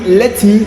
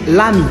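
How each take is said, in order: First: The t is clearly pronounced between the words. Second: The t is dropped, running the words together. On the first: "Au lieu de dire let me" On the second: "il dit Lami"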